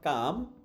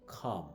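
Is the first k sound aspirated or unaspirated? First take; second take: unaspirated; aspirated. First: The first k sound has no breath puff. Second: The first k sound has a strong breath puff. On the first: The speaker calls it wrong. "So it's not calm" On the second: The speaker calls it right. "It must be calm"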